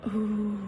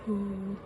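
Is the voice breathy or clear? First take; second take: breathy; breathy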